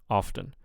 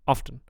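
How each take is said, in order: First: The first vowel is held longer. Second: The first vowel is clipped short. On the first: The speaker calls it right. "but I want often" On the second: The speaker calls it wrong. "first vowel is a little too short"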